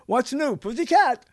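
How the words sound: It is said like an exclamation. "with an exclamation point, it would be"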